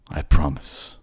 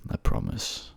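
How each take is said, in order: First: Louder, stressed "I" in "I promise"; firm promise. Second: Soft low unvoiced whisper of "promise". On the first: Acted. Lover repeats his vow aloud, firm and loud. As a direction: declare it out loud now. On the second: Lover whispers a vow to himself while going down, whispered. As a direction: breathe the promise almost to yourself. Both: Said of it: "I'm coming to get you, my love".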